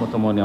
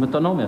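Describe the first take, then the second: First: The consonants are swapped: o-to-mo-ni-a. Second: The consonants are in order: o-to-no-mi-a. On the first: The speaker calls it wrong. "לא אומרים אוטומוניה" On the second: The speaker calls it right. "אומרים אוטונומיה"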